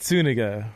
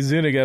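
First: The name begins with a hissing s sound. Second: The name begins with a buzzing z sound. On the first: The speaker calls it right. "Pronounce with an S" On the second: The speaker calls it wrong. "it's spelled Z-U-N. So, I mean, you want to say Zuniga"

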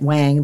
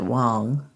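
First: The name has an English 'a' vowel, like 'bang'. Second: The name has an 'o' vowel, like 'song'. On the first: This is how English speakers say the name. "we who speak English would call it Wang" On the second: This is how the name's owner says it. "they pronounce it Wong"

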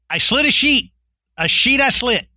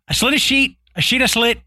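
First: The phrase is spoken slowly. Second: The phrase is spoken quickly. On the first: "if you say it that slow" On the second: "I'll say it faster"

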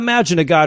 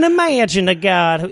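First: It is said in the speaker's normal accent. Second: It is said in a put-on foreign accent.

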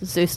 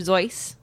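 First: The name rhymes with goose. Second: The name does not rhyme with goose. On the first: This is the later pronunciation, easier for kids. "Seuss to rhyme with goose" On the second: This is the original pronunciation. "it is originally Dr. Seuss, because that's how he would have pronounced it"

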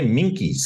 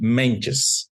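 First: The middle consonant is a k sound. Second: The middle consonant is a ch-like sound. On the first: The speaker calls it wrong. "some people say Minkies or something" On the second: The speaker calls it right. "it's Louis Mentjes"

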